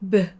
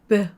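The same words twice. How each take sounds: Both takes have the same delivery.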